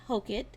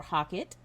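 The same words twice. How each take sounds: First: "Hockett" with a long O, HOH-kit; first pronunciation option. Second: "Hockett" with an open vowel, HAH-kit; second pronunciation option. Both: Shown as a demonstration. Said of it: "Tell me how to say that".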